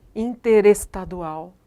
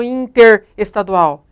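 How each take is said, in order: First: "interestadual" slow and linked, r flowing into the next vowel; joined as spoken. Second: "interestadual" cut into inter and estadual, prefix loud; wrong prefix split. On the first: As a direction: run "interestadual" together as in-te-res-tadual. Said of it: "é assim que nós falamos". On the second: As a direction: punch inter, then restart on estadual in "interestadual". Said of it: "Eu não falo interestadual". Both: Shown as a demonstration.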